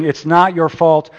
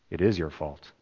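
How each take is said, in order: First: Said in the usual way. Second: Soft, low, stress on is; quiet verdict. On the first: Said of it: "Instead of hearing". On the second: Shown as a demonstration. Pastor softly telling the congregation the hard truth. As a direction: drop it low and hit is. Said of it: "we need to hear".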